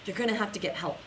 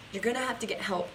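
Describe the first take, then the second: No difference in how they are said.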